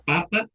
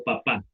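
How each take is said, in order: First: Papa as PApa; papa with a strong opening syllable; stress on first syllable. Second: Papá as paPÁ; papá with a strong final syllable; stress on last syllable. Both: Shown as a demonstration. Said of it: "mayor intensidad".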